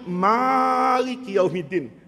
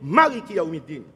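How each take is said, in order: First: The first vowel of Malik is long. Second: The first vowel of Malik is short. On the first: It is the active participle form. "Ini namanya isim fa'il dalam ilmu nahu" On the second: It is the adjective form. "sifat musyabbahah pendek"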